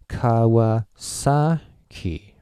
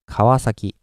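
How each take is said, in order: First: One syllable gets a strong, loud stress. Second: Volume stays flat and only pitch changes. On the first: "give uh, the strong accent on this one, and uh, yeah, the pitch too. Uh, you would go" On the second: "but Japanese... I will go like Kawasaki. The volume is flat"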